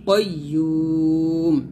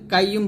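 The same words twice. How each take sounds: First: The 'yu' vowel is drawn out long. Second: The 'yu' vowel is short and clipped. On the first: The speaker calls it right. "ইউতে তিন টান দিয়ে মিমকে সেকন করবো" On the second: The speaker calls it wrong. "এখানে আমরা অনেকে বলি কাইয়ুম বলি"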